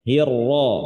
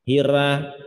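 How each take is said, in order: First: The R sound is heavy and thick. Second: The R sound is light and thin. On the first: The speaker calls it right. "huruf ra yang tebal" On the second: The speaker calls it wrong. "ada yang baca dengan tipis"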